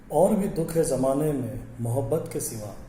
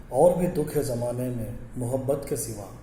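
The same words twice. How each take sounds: The two takes are said the same way.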